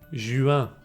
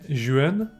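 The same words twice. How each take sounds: First: The vowel is nasal with no N heard. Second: An N consonant is heard at the end. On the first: The speaker calls it right. "I'm saying juin" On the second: The speaker calls it wrong. "I'm not saying juin"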